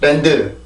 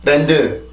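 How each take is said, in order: First: It is said with Korean pronunciation. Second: It is said with Korean pronunciation.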